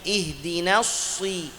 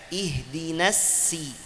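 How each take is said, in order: First: The s is said with rounded lips. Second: The s is a plain thin s. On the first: "huruf sad tapi dengan munyung" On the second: "Ada yang baca ihdinas si, sin"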